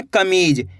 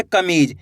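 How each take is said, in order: First: Said in the usual way. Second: कमीज drawn out long, vowel ई held; stretched out. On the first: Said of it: "कैसे पढ़ेंगे?". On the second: Shown as a demonstration. Teacher showing pupils how to stretch out कमीज. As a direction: stretch the word कमीज slowly. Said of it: "खींच के".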